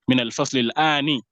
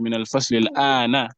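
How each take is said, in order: First: The last word ends with an i vowel. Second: The last word ends with an a vowel. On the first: The speaker calls it wrong. "he will say maybe" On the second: The speaker calls it right. "it's meant to be"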